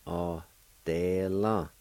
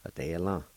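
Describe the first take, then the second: First: "Adela" slowly, syllables held apart; syllable-by-syllable pronunciation. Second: Said in the usual way. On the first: Shown as a demonstration. Teacher showing the second part, slowly sounded out. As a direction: stretch out each syllable of "Adela". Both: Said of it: "is pronounced like this".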